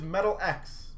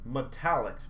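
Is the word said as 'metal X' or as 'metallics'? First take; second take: metal X; metallics. First: It is said as 'metal' plus the letter X. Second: It is said as one word, 'metallics'. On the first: The speaker calls it wrong. "a lot of people are going to call these Metal X" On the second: The speaker calls it right. "That's a pronunciation of these"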